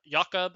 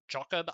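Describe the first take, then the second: First: "Jakob" as YAH-kob, with a Y; Y pronunciation. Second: "Jakob" starting like "jock"; "Jakob" as JAH-kob, with a J; J pronunciation. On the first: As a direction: say "Jakob" with a Y sound, YAH-kub. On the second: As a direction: say "Jakob" with a hard English J, JAH-kub. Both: Real, not acted. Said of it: "I don't know how to pronounce it".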